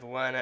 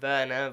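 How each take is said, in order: First: The name begins with a W sound. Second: The name begins with a V sound.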